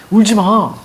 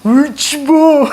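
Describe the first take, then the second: First: Raised-pitch order to stop crying; telling them off, lightly acted; night guard's command. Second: High, drawn-out mock wail; mock tearful. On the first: Night guard hushing crying recruits, mildly insistent. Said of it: "불침번이". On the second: Night guard starts crying while hushing recruits, mock wailing. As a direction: break into hammed-up crying mid-order. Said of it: "그래서 얘도 우는 거야".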